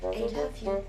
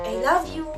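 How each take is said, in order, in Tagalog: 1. Sinabi ito sa dismayadong tono. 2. Sinabi ito sa sarkastikong tono. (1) "Disappointed muna" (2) "Next is sarcastic"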